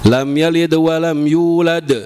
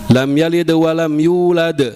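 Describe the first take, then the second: No difference in how they are said.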